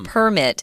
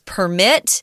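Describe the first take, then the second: First: The stress is on the first syllable. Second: The stress is on the second syllable. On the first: It is the noun, an official document. "zhongyin is on the first syllable with the noun" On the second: It is the verb, meaning to allow. "the verb is permit"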